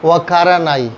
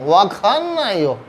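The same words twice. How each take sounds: First: वखारा नाई with every syllable and the रा said clearly; वखारा नाई spelled out carefully as the real word; full correct form. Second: वखान ना हो said slowly, with the रा dropped into a doubled न; वखान ना हो run together the way it sounds in casual speech; slurred casual form. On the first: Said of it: "असल word है वखारा नाई". (वखारा नाई को पूरा और साफ़, रा के साथ बोलें) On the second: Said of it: "बोलते बोलते वखान नाई हो जाता है". (वखान ना हो को ढीले, बोलचाल वाले ढंग से, रा को निगलकर बोलें) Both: Shown as a demonstration.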